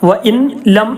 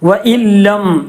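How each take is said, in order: First: The n is pronounced separately before the l. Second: The n is merged fully into the l. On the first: The speaker calls it wrong. "എന്ന് പറയരുത്" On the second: The speaker calls it right. "നൂനിന്റെ ശേഷം ലാമ് വന്നാൽ ഇദ്ഗാമും ബിലാഗുന്നയാണ് നിയമം"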